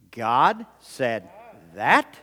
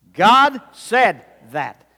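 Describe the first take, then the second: First: Slow, separate words, THAT rising; questioning. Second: Loud, slow GOD SAID THAT, falling at the end; exclamation point. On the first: Preacher leading one half's challenge, questioning rise on THAT. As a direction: ask it word by word, lifting THAT. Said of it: "we're going to say". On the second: Preacher leading the response, loud exclaimed GOD SAID THAT. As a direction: punch GOD high and loud, land THAT. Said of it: "we're gonna respond by saying". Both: Shown as a demonstration.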